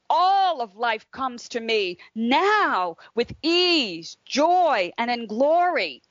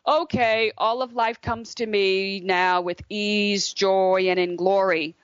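First: It is said with energy and feeling. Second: It is said flatly, without feeling.

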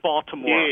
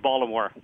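First: The name is said in the outsider way. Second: The name is said in the local Baltimore way. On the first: The speaker is not from Baltimore. The speaker calls it wrong. "not Baltimore" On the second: The speaker is from Baltimore. The speaker calls it right. "only the people from Baltimore say Baltimore"

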